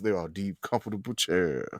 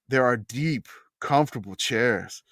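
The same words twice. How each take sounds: First: It is read in a put-on character voice. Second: It is read in a plain, ordinary voice. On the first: "I'm gonna read in the Corvallis and Love voice" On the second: "Not like that"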